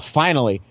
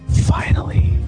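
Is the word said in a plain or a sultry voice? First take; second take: plain; sultry. First: It is said quickly in a plain voice. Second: It is said slowly in a sultry voice. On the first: "it happened so fast" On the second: "with her sultry lips"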